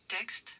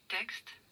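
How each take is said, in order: The two takes are said the same way.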